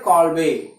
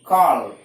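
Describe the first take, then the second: First: The name ends with an added vowel. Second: The name ends on the b sound. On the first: "Some teachers pronounce it Kolbe" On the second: "K O L B E, Kolb"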